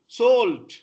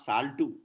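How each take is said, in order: First: The word ends cleanly on the t sound. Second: An extra vowel is added after the final t. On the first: The speaker calls it right. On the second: The speaker calls it wrong.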